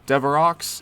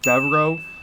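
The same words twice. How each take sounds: First: The name is pronounced the English way. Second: The name is pronounced the French way.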